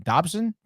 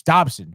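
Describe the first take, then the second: First: Unsure question. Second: Sure statement. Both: Real, not acted.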